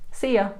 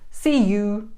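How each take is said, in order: First: The word 'you' is reduced to 'ya' with a schwa. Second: The word 'you' is said fully with an 'oo' vowel. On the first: The speaker calls it right. "So we say see ya" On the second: The speaker calls it wrong. "It sounds super unnatural"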